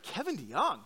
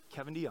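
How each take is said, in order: First: Rising, disbelieving Kevin DeYoung?; incredulous question. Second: Said in the usual way. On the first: Retold or imitated. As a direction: ask Kevin DeYoung? as if it cannot be true. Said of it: "And I thought".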